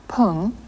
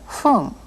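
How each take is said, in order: First: The word begins with a p sound. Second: The word begins with an f sound. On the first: The speaker calls it wrong. "you heard not pung" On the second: The speaker calls it right. "but fung"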